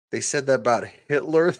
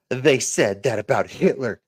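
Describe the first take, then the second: First: Quick, higher disbelieving question; incredulous echo. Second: Said in the usual way. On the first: Real, not acted. Streamer answering a chat comment, incredulous echo. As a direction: throw it back as a question.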